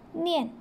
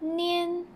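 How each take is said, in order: First: The pitch falls sharply from high to low. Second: The pitch stays high and level.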